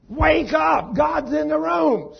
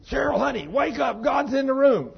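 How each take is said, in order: First: Very high, very loud frantic scream. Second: High, loud urgent shout at his sleeping wife. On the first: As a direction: scream it in full panic, slower and stretched. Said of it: "Screaming, hitting her in the side". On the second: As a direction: yell it to wake her in a panic. Husband waking wife, God present. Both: Retold or imitated.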